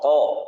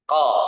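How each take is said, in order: First: The syllable is said with the mouth nearly closed. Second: The syllable is said with the mouth wide open. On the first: The speaker calls it wrong. "Ini mulutnya nggak terlalu buka gitu ya. Jadi salah" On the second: The speaker calls it right. "Buka mulutnya"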